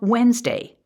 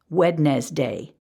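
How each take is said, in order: First: Said the everyday way, with natural reductions. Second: Said with every syllable sounded out carefully.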